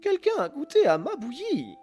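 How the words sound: It is said in a medium voice.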